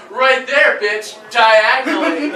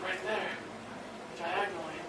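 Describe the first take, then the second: First: Bratty little sister. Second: Much softer, lower deadpan; quiet deadpan. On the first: Retold or imitated. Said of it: "she goes". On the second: Pretend. Quoting the sister to his friend, soft and low deadpan. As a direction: drop it soft and low like a punchline. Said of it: "And I say".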